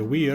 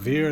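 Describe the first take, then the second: First: The name begins with a W sound. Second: The name begins with a V sound. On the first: The speaker calls it right. "it's probably Weir, because we're probably going with classic Latin here" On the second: The speaker calls it wrong. "I was probably mispronouncing this. It's not Vir"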